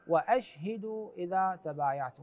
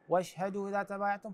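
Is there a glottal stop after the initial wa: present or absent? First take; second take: present; absent. First: A glottal stop follows the wa. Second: The wa runs straight into the next sound. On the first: The speaker calls it right. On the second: The speaker calls it wrong.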